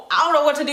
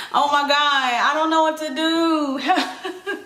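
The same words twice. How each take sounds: First: Said in the usual way. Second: Slow, drawn out through a laugh; laughing helplessly. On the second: Real, not acted. Plant owner telling viewers she's lost, slow helpless laugh. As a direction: laugh at her own panic.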